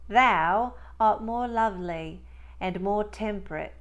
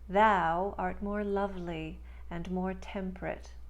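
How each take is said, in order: First: It is spoken in a Cockney accent. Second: It is spoken in a neutral American accent. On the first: "And now in Cockney" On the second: "in standard neutral American speech"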